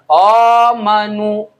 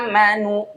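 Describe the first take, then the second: First: The first vowel is a rounded 'o'. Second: The first vowel is a clear, open 'a'. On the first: The speaker calls it wrong. "bukan amanu, itu o, itu salah" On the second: The speaker calls it right. "harusnya a ya"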